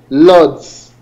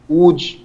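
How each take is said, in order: First: It begins with an L sound, like lords. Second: It begins with a W sound, like wood. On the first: A foreigner's way of saying the name. The speaker calls it wrong. "Foreigners that don't know the correct pronunciation call it lords" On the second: The way locals say the name. The speaker calls it right. "we call it wood"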